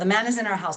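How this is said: The words flow together like one word. The speaker calls it right. "those four words can sound like one word"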